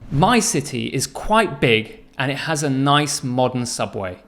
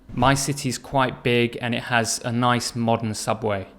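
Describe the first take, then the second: First: It is spoken with high, lively energy. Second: It is spoken with low, flat energy. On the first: The speaker calls it right. "Compared to this" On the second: The speaker calls it wrong. "If you start with low energy like this, your answer will never pick up and the whole answer will be flat"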